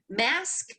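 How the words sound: It is said in a sassy American accent.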